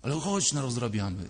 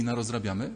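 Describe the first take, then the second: First: Lightly voiced little boy coaxing, falling at the end; little [name]. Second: Lightly voiced little boy tempting with a rising question; little [name]. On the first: Little boy urges his grown self on, coaxing insistence. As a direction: keep nagging, let it drop into insistence. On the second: Little boy invites his grown self to misbehave, hopeful question. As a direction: propose mischief, ending on an upward lilt. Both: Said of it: "mały [name] i mówi".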